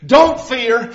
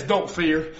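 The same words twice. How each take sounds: First: Said in the usual way. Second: "Don't fear." said much lower and softer; soft reassurance. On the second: Acted. God gently tells the sinner "Don't fear." very softly.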